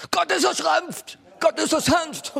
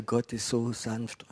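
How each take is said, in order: First: Very high, loud mock screaming; imitated screaming preacher. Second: Slow, soft and gentle. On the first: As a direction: scream it like an over-zealous prophetic preacher's interpreter. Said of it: "prophetische Schreihälse". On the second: Retold or imitated. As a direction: say it softly and tenderly, drawn out. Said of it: "ich spreche über diese Sanftheit Gottes".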